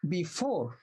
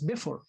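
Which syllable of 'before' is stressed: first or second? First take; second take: second; first. First: The stress is on the second syllable. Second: The stress is on the first syllable. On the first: The speaker calls it right. "you put stress on the on the four" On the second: The speaker calls it wrong. "If you put stress on the first syllable, you will pronounce it as before, uh, not English"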